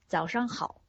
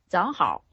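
First: Every syllable is pronounced fully and clearly. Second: Syllables are slurred and partly swallowed together.

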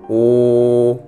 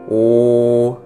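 The two takes are said the same way.

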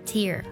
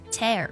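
First: It is pronounced as the noun meaning teardrop. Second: It is pronounced as the verb meaning rip. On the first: The speaker calls it wrong. "可不是tear" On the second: The speaker calls it right. "不过它的发音呢是tear"

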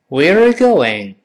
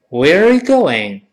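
No difference in how they are said.

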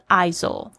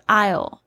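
First: The S sound is pronounced in the word. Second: The S sound is silent in the word. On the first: The speaker calls it wrong. "不要发成死不是ISO" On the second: The speaker calls it right. "S 是不发音的"

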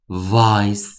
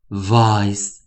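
The two takes are said the same way.

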